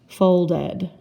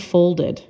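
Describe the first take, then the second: First: The ending is pronounced as a full 'ed'. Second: The ending is pronounced as a light 'id'. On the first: The speaker calls it wrong. "Sometimes it says ed" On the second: The speaker calls it right. "It sort of sounds robotic because I say folded"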